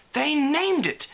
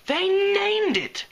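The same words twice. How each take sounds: First: Much higher gasp of horror. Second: Even higher, louder, slow horrified cry; shrieking gasp. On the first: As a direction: gasp it out in shock. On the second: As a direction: stretch it into a panicked wail. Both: Acted. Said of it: "she gasped".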